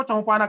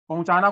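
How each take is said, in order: First: "चौपाना" for पहुंचाना, च and प trading places; child's sound swap. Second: Said in the usual way. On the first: Shown as a demonstration. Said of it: "यहाँ प की जगह पे च". ("चौपाना" में प और च की अदला-बदली) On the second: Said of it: "पहुंचाना को चौपाना कहेगा".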